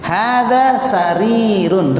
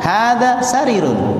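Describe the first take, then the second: First: The vowel in 'ri' is held long. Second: The vowel in 'ri' is cut short. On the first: The speaker calls it right. "Ri-nya panjang" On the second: The speaker calls it wrong. "Jangan hadza sarirun"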